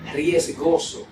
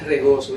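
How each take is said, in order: First: The first syllable is a full 'ries' sound. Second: The first syllable is a plain 're' sound. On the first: The speaker calls it right. "es riesgoso" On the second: The speaker calls it wrong. "no es regoso"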